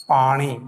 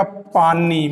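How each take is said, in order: First: पानी with retroflex ण; Marwari pronunciation. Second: Said in the usual way. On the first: Shown as a demonstration. Teacher shows Marwari retroflex ण in speech. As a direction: curl the tongue back on the न of पानी. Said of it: "Marwari में होगा". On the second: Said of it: "Hindi में लिखा जाएगा".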